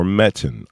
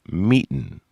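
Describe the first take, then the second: First: Meton with a short E, MET-on; first vowel of Meton like "met"; short-e pronunciation. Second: Meton with a long E, MEE-ton; first vowel of Meton like "meet"; long-e pronunciation. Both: Shown as a demonstration. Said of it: "how she wants to pronounce that word".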